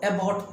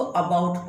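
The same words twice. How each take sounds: First: About said as ebaut, first vowel like e; about with a clear e sound at the start; wrong about. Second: About said as ebaut with a weak schwa start; correct about. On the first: Teacher shows the common wrong about, ebaut. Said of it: "कुछ लोग इसको about पढ़ते हैं". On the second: Teacher models the correct about, əbaut. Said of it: "बिल्कुल सही उच्चारण है". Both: Shown as a demonstration.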